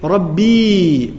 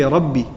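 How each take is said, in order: First: RABBI with a long, drawn-out final ee; long final vowel. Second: RABBI kept short, lower, with a brief final i; short final vowel. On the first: Preacher showing how we don't beg Allah, long drawn-out "Rabbi". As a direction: stretch out the end of "Rabbi". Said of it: "we don't say". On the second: Preacher showing a desperate cry to Allah, short "Rabbi". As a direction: cut the end of "Rabbi" short. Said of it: "Rabbi is short". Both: Shown as a demonstration.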